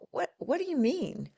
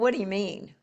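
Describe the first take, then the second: First: The question sounds warm and genuinely curious. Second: The question sounds sharp and confrontational. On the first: The speaker truly wants to know more. The speaker calls it right. "if you're genuinely curious" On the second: The speaker is challenging the other person. The speaker calls it wrong. "you don't you don't say"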